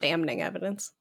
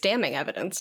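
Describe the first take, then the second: First: The n after 'dam' is clearly pronounced. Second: The n after 'dam' is silent. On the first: The speaker calls it wrong. "not damning evidence" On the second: The speaker calls it right. "It's damning evidence"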